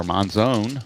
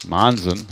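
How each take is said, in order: First: Monzone with a long O, like "zone"; alternative pronunciation. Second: Monzon as MON-zun, weak second syllable; alternative pronunciation. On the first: Offering another way to say the player's name, Monzone ending in "zone". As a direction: end Monzone on a full "zone". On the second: Offering another way to say the player's name, Monzon as MON-zun. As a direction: reduce the end of Monzon to a short "zun". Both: Shown as a demonstration. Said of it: "however you wanna pronounce it".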